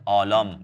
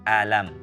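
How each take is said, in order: First: The vowels sound thick and rounded, like 'o'. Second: The vowels sound thin and open, like 'a'. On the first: The speaker calls it wrong. "bukan bukan olom ya" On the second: The speaker calls it right. "tapi alam, tipiskan hamzahnya ya"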